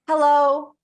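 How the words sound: It is said high at the top of the breath. The speaker sounds less competent. The speaker calls it wrong. "say hello at the top of your breath"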